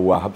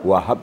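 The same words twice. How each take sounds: First: The middle h sound is short and single. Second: The middle h sound is held doubled. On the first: Just a giver. The speaker calls it wrong. "kalau Wahhab saja, pemberi saja" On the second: The Most Generous Giver. The speaker calls it right. "Wahhab itu maha, maha pemberi"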